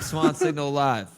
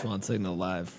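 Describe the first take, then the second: First: It is said with enthusiasm and conviction. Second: It is said flatly, without emphasis.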